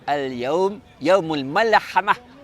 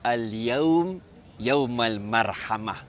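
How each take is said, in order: First: The last word is said with an L sound. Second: The last word is said with an R sound. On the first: Today is a day of bloodshed. The speaker calls it wrong. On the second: Today is a day of mercy. The speaker calls it right.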